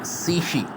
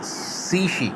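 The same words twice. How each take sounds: First: सीशी said high then falling hard; falling fourth tone again. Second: सीशी dropping sharply; falling fourth tone. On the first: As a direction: drop the pitch on सीशी. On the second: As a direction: bring सीशी down firmly. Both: Shown as a demonstration. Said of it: "fourth tone".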